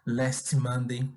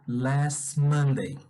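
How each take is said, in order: First: The T of 'last' is released hard and choppy. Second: The T of 'last' is softened into 'Monday'. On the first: The speaker calls it wrong. "se eu pronunciar esses dois sons, vai começar a dar um soquinho" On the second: The speaker calls it right. "ele é bem suave"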